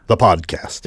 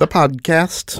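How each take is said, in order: First: It is said in a firm, declarative way. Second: It is said in a less firm, tentative way. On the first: The speaker calls it right. "more declarative" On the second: The speaker calls it wrong. "I shouldn't say it that way"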